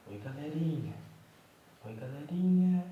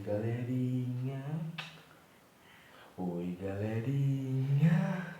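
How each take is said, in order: First: High, loud sing-song hello; high baby greeting. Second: Put-on slow, drawn-out, louder hello for the baby; baby greeting voice. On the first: Pretend. Father voicing the baby's hello, high and bright. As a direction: pitch it up like the baby saying hi. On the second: Father voicing the baby's hello to viewers, drawn out. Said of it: "Fala oi pra galerinha".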